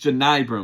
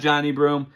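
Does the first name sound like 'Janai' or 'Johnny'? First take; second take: Janai; Johnny. First: The first name is said like 'Janai'. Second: The first name is said like 'Johnny'. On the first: The speaker calls it right. "It's Janai Broom" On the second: The speaker calls it wrong. "not Johnny Broom"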